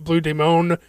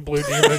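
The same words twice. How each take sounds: First: The name is said with a Spanish-style pronunciation. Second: The name is said with a plain English pronunciation. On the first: This is the authentic pronunciation of the name. "like Blue Demon, which is how it's actually pronounced" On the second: This is the anglicized pronunciation of the name. "you're a fucking gringo, just say Blue Demon"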